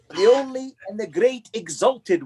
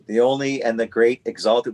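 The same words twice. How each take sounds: First: It is said in a put-on English accent. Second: It is said in the speaker's ordinary accent.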